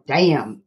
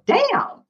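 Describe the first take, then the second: First: It is said in a dismayed, disappointed way. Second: It is said in an impressed, delighted way. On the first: Things are really bad. "When things are really bad, you can go" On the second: Things are really good. "And when things are really good, you can go"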